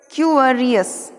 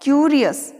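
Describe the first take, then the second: First: क्यूरियस slowly as "kyoo-uh-ri-us"; drawn-out, syllabled क्यूरियस; pronunciation demo. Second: क्यूरियस as "kyoo-ri-us"; long YOO straight into R in क्यूरियस; pronunciation demo. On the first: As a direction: add a schwa before R in क्यूरियस. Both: Shown as a demonstration. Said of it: "किस प्रकार से बोलना है".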